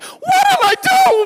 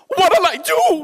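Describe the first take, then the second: First: It is said in a higher pitch. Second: It is said in a lower pitch.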